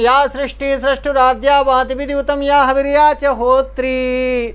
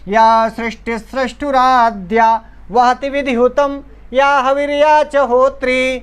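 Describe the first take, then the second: First: The line runs on without a break. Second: It pauses after every seven syllables. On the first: The speaker calls it wrong. "यदि आप ऐसे पढ़ देंगे" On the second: The speaker calls it right. "सात सात अक्षर पर यति लेकर के पढ़नी है"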